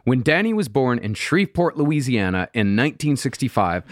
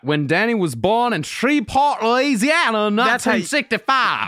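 First: The place name is said plainly and clearly. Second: The place name is slurred in a local accent. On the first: The speaker calls it wrong. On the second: The speaker calls it right.

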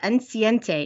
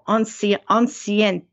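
First: The word is pronounced with Spanish-style sounds. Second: The word is pronounced with French-style sounds. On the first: The speaker calls it wrong. "I was thinking Spanish" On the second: The speaker calls it right. "Francais. Because the E would be silent"

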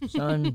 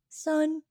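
First: It is said in a lower, deeper voice. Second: It is said in a raised, high voice.

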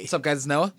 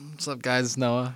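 First: It is said with lively, high energy. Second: It is said with low, flat energy. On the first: The speaker calls it right. "That's better" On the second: The speaker calls it wrong. "That energy was very low"

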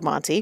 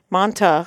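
First: The word ends with an 'ee' sound. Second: The word ends with an 'ah' sound. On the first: This is the correct way of saying it. The speaker calls it right. "which is called Monty" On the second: This is the family's childhood way of saying it. The speaker calls it wrong. "Manta, we called it as a child"

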